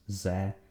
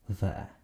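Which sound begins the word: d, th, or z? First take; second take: z; th. First: The word begins with a buzzing z sound. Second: The word begins with a soft th sound. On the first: "or sometimes ze" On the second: "English th, as in the"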